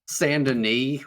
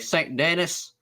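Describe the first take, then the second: First: It is pronounced the French way. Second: It is pronounced the anglicized American way. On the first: "the most French name ever. Like, they say it correctly" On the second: "if you were a cowboy, you'd say"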